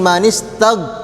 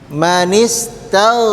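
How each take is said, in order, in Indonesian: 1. Bunyi gh ditekan dan dipotong tiba-tiba. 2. Bunyi gh lembut dan ditahan. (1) "jangan langsung berhenti" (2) "jangan terlalu ditekan"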